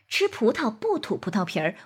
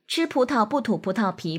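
First: It is said lively with varied pace. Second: It is said flatly at one even pace. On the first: The speaker calls it right. "这种充满交流感、灵活生动的表现形式" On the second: The speaker calls it wrong. "这种机械化的表达方式"

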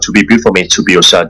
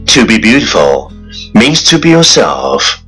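First: It is spoken very fast, all in one breath. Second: It is spoken at a moderate, even pace.

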